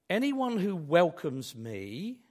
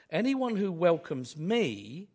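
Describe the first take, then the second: No difference in how they are said.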